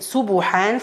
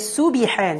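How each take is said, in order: First: A u vowel is added after the b sound. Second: An i vowel is added after the b sound. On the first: "You shouldn't circle the lips to form dhamma. Like saying subuhan" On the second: "She's adding kesra to the vibration"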